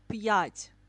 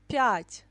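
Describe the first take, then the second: First: A separate y sound follows the consonant. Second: The y sound is blended into the consonant. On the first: The speaker calls it wrong. "not пять" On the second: The speaker calls it right. "You pronounce like p, пять"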